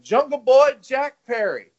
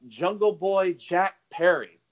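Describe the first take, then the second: First: Put-on name called out higher and louder, "Jungle Boy Jack Perry" with the punch on "Boy"; mock announcer call. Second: Said in the usual way. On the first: Retelling the commentator naming the wrestler, in a mock announcer call. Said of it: "he was like". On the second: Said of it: "he called Jungle Boy Jack".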